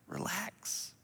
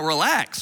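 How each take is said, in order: First: It is said softly and reassuringly. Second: It is said curtly and dismissively. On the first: It calms the listener down. The speaker calls it right. "especially with your tone" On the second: It provokes the listener to anger. The speaker calls it wrong. "You just lit the fuse"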